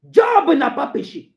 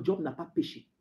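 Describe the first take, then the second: First: Loud, high, slow proclamation; emphatic shout. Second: Low, soft declaration; quiet statement. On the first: Preacher vindicating Job to the congregation, shouting. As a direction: burst out with it, drawing it out. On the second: Preacher citing the Bible on Job, quiet. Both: Acted.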